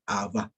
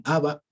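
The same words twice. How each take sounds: First: "Abba" said lower, stressed on the last A; final-syllable stress. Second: "Abba" accented on the first syllable; wrong stress. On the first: Teacher correcting the songs' version, "Abba" with end stress. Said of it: "se dice Abba". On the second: Teacher quoting the songs' mistaken form, "Abba" with first-syllable stress. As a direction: put the stress early in "Abba". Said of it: "no está bien". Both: Shown as a demonstration.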